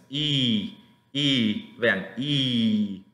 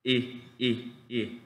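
First: Drawn-out, smiling "I", like ee; stretched ee sounds for "I"; long vowel I. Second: "I" cut short, barely articulated; short vowel I. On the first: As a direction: hold each "I" long with smiling lips. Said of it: "siempre estar sonriendo". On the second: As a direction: say each "I" briefly, mouth almost still. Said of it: "Casi no articulo". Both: Shown as a demonstration.

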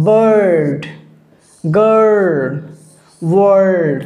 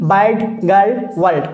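First: বার্ড, গার্ল, ওয়ার্ল্ড with a long held "er"; long touchy আ. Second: বার্ড, গার্ল, ওয়ার্ল্ড with a short open "aa"; wrong open vowel. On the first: Teacher correcting the mistake for students, long drawn "er" vowel. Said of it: "এটা হচ্ছে". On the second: Teacher showing students the mistake, short open "aa" vowel. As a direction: say বার্ড, গার্ল, ওয়ার্ল্ড as "baard, gaal, waald", unstretched. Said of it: "না হবে না এটা". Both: Shown as a demonstration.

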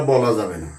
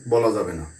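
No difference in how they are said.

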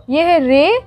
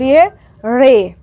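First: रे said slowly with a plain tongue-tip R; plain R sound. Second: रे said as a flapped ṛe, tongue curled back; retroflex R. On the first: Teacher contrasting two Urdu letters for learners, plain R in रे. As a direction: draw out रे with an ordinary R. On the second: Teacher contrasting two Urdu letters for learners, retroflex flap in रे. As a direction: curl the tongue back and flick it on रे. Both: Shown as a demonstration. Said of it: "ज़रा ध्यान से pronounce कीजिएगा".

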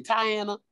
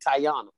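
First: Country-accented Tiana, middle vowel a flat A as in "can". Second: Baltimore-accented Tiana, middle vowel an open AH. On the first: Woman saying her own name as at home, country accent. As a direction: say Tiana the country way, as Tie-ANN-a. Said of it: "I'm from the country". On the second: Woman showing how her mother's side says her name, Baltimore accent. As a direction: say Tiana the Baltimore way, as Tie-AHN-a. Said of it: "you might say it with an accent". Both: Shown as a demonstration.

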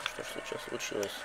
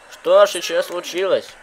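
First: Whispering. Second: Loud. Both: Acted. Repeated question, hushed then loud.

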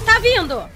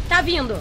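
First: Louder, urgent warning; alarmed. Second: Said in the usual way. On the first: Real, not acted. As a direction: call it out in sudden alarm. Creature comes closer.

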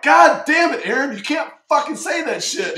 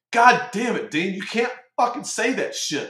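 First: Much higher, much louder mock tirade; hammed-up furious yell. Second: A half-hammed, higher and louder chewing-out; mock angry yell. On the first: Now the CMC himself yelling at a sailor, a hammed-up furious yell. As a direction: blow up at the sailor, full theatrical rage. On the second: Retelling the CMC scolding him in the mess, a mock angry yell. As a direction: bark it like the old boss scolding you.

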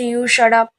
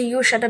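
First: Mock yell, louder than his; topping his shout, louder mock yell; louder retold shout. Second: A barely raised mock yell, held back; first, quieter shut up; retold shout. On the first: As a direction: throw it back harder, a touch louder. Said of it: "আরও জোরে চিৎকার করে বলছে". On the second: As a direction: snap it without real volume. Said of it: "চিৎকার করে বলছে".

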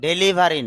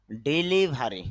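First: ডেলিভারি opened with "de-"; wrong pronunciation. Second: ডেলিভারি opened with "di-"; correct pronunciation. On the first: Teacher showing the common local form to avoid, mispronounced. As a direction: say ডেলিভারি with e in the first syllable, "de-livari". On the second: Teacher correcting the word for learners, carefully pronounced. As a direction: say ডেলিভারি with i in the first syllable, "di-livari". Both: Shown as a demonstration. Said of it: "ডেলিভারি না".

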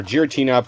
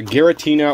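First: Giratina with a soft G, like a J; "Giratina" as Jeer-a-tina; soft G pronunciation. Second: Giratina with a hard G, as in "get"; "Giratina" as Gheh-ra-tina; hard G pronunciation. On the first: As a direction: start "Giratina" with a J sound. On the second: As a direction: start "Giratina" with a hard G sound. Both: Shown as a demonstration. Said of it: "Pronounce however you want".

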